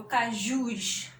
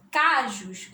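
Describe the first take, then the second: First: "cajus" stressed on the last syllable, JUS. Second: "cajus" wrongly stressed on the first syllable, CA. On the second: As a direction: say "cajus" as CÁ-jus, second syllable weak. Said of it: "Qual é a sílaba tônica?". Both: Shown as a demonstration.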